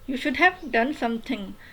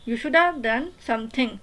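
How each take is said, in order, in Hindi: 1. 'should have' का हर शब्द पूरा बोला जाता है। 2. 'Should have' को जोड़कर, घटे हुए रूप में बोला जाता है। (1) "हम लोग तो फुल फुल टेंसेस यूज़ करते हैं" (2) "नेटिव स्पीकर्स को देखें तो वो बोलते हैं"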